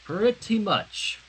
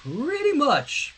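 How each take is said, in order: First: Said in the usual way. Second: High drawn-out. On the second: Shown as a demonstration.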